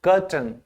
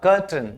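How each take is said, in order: The two takes are said the same way.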